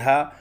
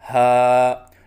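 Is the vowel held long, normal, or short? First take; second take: short; normal. First: The vowel is cut shorter than normal. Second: The vowel is held for a normal length. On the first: The speaker calls it wrong. "न एक अलिफ से कम हो" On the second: The speaker calls it right. "एक अलिफ के बराबर लंबा करके पढ़ें"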